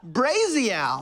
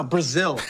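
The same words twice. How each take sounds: First: "Brazil" stretched into "BRAY-zee-al"; odd pronunciation. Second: Said in the usual way. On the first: Pretend. Player reading out where the globe landed, mispronounced "Brazil". Word said, then corrected next line.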